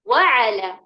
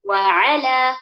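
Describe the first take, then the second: First: The stress is on the first syllable. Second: The stress is on the second syllable. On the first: The speaker calls it wrong. "जो गलत है ... कहाँ हम लोगों ने जोर डाला? हर्फल वाव पर" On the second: The speaker calls it right. "सही तरीके से ऐसे पढ़ेंगे"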